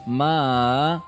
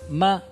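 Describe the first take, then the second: First: The pitch dips from mid to low, then mid. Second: The pitch stays high and level. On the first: It means horse. "um tom deslizante de médio, baixo, médio" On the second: It means mother. "é um tom pontual alto"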